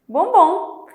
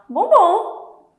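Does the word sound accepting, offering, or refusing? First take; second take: accepting; accepting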